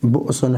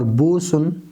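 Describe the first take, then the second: First: A glottal stop follows the short first vowel. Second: A long vowel replaces the glottal stop. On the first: This is the original form of the word. "असल में बुअसुन है" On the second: This is a permitted softened reading. "पढ़ लें तो ये जायज़ है"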